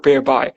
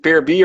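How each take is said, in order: First: The last syllable sounds like 'buy'. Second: The last syllable sounds like 'bee'. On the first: "or peer buy?" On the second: "is it peer B"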